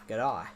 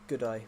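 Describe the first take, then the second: First: It is said in an Australian accent. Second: It is said in the speaker's natural accent. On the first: "if I did the Australian accent" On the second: "This is my natural accent"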